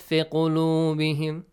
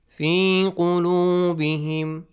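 First: The long vowel in the first word is short. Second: The long vowel in the first word is stretched. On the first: The speaker calls it wrong. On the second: The speaker calls it right. "We have حرف المد"

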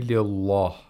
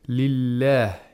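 First: The L sound is heavy and thick. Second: The L sound is light and thin. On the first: The speaker calls it wrong. "You shouldn't say lillah" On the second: The speaker calls it right. "we have to pronounce the lam with tarqiq"

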